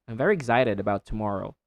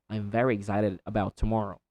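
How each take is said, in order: Both takes have the same delivery.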